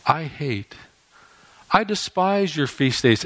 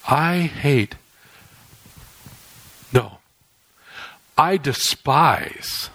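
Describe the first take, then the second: First: Said in the usual way. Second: "despise" slow and weighty after a pause; corrected emphasis. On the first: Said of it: "Actually, the way that this is read". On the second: Shown as a demonstration. God correcting himself to stress "despise". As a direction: stop short on "I hate", then lean slowly into "I despise". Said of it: "That's how this is actually to be read".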